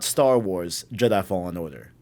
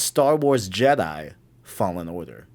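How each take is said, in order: First: There is a break after the word Wars. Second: There is a break after the word Jedi. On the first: The speaker calls it wrong. "it's not" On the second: The speaker calls it right. "The colon's after Jedi"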